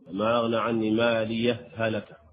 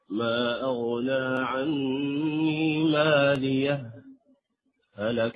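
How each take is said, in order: First: The two h sounds merge with no break. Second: A brief silent pause without breath separates them. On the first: "حسب قاعدة المثلين وأولي مثل الإدغام" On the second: "هذا الوصل مع السكت"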